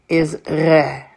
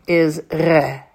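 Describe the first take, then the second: No difference in how they are said.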